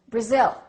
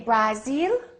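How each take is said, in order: First: The first vowel is reduced to a short uh. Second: The first vowel is a full, clear vowel. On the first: The speaker calls it right. "No, this is no longer a, it's a" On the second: The speaker calls it wrong. "What do we say?"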